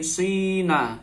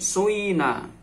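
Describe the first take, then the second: First: The first vowel is a clear 'ee' sound. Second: The first vowel blends 'oo' into 'ee'. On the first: "fa fi'il dibaca kasroh" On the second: "fa fi'ilnya boleh ismam"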